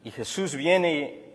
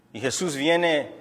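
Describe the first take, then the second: No difference in how they are said.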